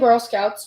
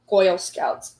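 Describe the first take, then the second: First: It is said in her plain accent. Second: It is said in a Brooklyn accent.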